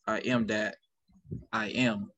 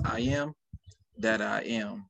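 First: "I am that" as one group, long pause, then "I am"; pause after THAT. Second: "I am", short pause, then "that I am" as one group; pause after first I AM. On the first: Host showing guest the other reading, long pause after "that". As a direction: split it as "I am that ... I am". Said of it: "or you can say". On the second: Host showing guest one reading of a quote, pause after first "I am". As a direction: split it as "I am ... that I am". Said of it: "you can say in two different ways". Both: Shown as a demonstration.

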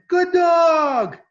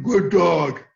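First: Loud, very high praise for a dog; high, happy doggy praise; high-pitched voice. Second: Loud, gruff "good dog"; the wrong way, low and stern. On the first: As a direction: squeal it to the dog, high and drawn out. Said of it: "in a high-pitched voice". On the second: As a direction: praise the dog in a low, forceful voice. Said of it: "low voices are dogs that". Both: Shown as a demonstration.

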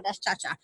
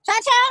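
First: Said in the usual way. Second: Calling out. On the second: Real, not acted. Calling the dog by name.

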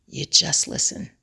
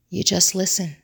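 First: Whispered. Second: Said in the usual way. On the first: Shown as a demonstration. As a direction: breathe the words with no voice.

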